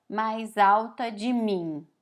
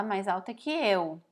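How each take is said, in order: First: "mais alta de mim" said slowly and deliberately as the wrong version; wrong literal phrasing. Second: Said in the usual way. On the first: Shown as a demonstration. Teacher showing Portuguese learners the wrong literal version, slow and deliberate. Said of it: "Em português a gente não fala". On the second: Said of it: "a gente fala".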